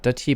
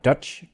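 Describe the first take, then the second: First: An extra vowel sound follows the final ch. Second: The word ends cleanly on the ch sound. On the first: The speaker calls it wrong. "not Dutchy" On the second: The speaker calls it right. "but Dutch"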